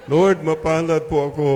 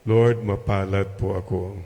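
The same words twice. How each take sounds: First: Louder, higher and sure of it; convincing declaration. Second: Said in the usual way. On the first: Shown as a demonstration. Priest urging the congregation, a louder convinced declaration. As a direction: proclaim it like you mean it. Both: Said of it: "parang hindi naman convincing".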